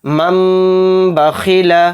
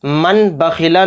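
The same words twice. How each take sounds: First: मम बखीला with the नून hidden into a held, slow मीम with गुन्ना; correct recitation. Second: मन बखीला with a clear नून, said quickly in passing; wrong reading. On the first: Teacher showing pupils the right way, slow held मम बखीला. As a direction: drawl मम बखीला slowly, no नून sound at all. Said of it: "इसको गुन्ना और इख्फा के साथ भी पढ़ेंगे". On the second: Teacher naming the wrong reading to avoid, quick मन बखीला. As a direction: say मन बखीला with the नून pronounced plainly. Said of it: "मन बखीला नहीं पढ़ेंगे". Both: Shown as a demonstration.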